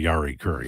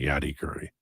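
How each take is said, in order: First: The first name has an R sound in the middle. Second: The first name has a D sound in the middle. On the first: "He wouldn't say Yari Curry" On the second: "he'd say Yadi Curry"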